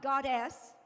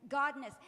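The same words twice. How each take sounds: First: "goddess" said as GOD-dess, the female deity; wrong word, goddess. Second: "godness" said GOD-ness, louder, with a clear n; correct word, godness. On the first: Speaker sets the wrong word "goddess" against her own, said GOD-dess. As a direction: say "goddess" first, as the word to reject. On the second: Speaker corrects the audience, stressing "godness" as GOD-ness. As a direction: land on "godness", GOD plus ness, loud and firm. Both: Shown as a demonstration. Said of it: "not goddess".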